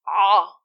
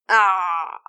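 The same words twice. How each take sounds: First: The sound is very short and cuts off abruptly. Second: The sound flows slightly, then stops. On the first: The speaker calls it wrong. "If the sound is too short and cuts immediately" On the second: The speaker calls it right. "the sound flows slightly, then stops"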